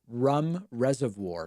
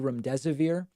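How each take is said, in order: First: The drug name sounds like 'rum reservoir'. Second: The drug name is said in the standard way. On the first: "he pronounced it rum reservoir" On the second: "the one time I heard him say remdesivir"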